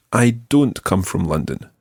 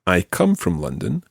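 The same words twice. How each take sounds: First: Don't punched as the contrast; stress on DON'T. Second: Said in the usual way. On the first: Shown as a demonstration. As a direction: lean on don't, then let the sentence fall. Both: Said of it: "I'd like you to compare".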